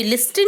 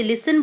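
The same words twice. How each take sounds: First: "लिस्टन" with the T sounded out; T pronounced. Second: "लिसन" with no T sound; silent T. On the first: Teacher shows students the wrong reading of listen, T pronounced. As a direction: say "लिस्टन" with an audible T after the S. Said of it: "लिस्टन नहीं बोलते हैं". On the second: Teacher shows students how listen is said, T silent. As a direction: say "लिसन", going straight from S to N. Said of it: "इसे लिसन बोलते हैं". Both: Shown as a demonstration.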